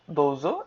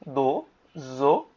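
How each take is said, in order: First: Said in the usual way. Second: দোজো very slowly, দোও with a long vowel, then জো; long syllables. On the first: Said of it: "এটা একটা আলাদা word". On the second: Shown as a demonstration. Teacher showing the u after do, long syllables. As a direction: stretch দোজো into two separate beats. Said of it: "দো এর সাথে উ আছে".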